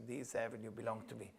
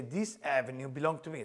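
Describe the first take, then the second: First: Softer, lower echo of the trainer; subdued repeat. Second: Said in the usual way. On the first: Retold or imitated. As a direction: repeat it back quietly as the reluctant trainee. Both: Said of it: "please repeat after me".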